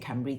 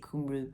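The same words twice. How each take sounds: First: The name is pronounced the original Welsh way. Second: The name is pronounced the local Pennsylvania way. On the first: This is the original form, not used locally. "They don't say Cymru" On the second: This is how the locals say it. "they say Cymru in that part of the States in Pennsylvania"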